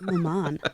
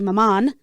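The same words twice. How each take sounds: First: The name is said in a plain, ordinary way. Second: The name is said in a fancy, elaborate way.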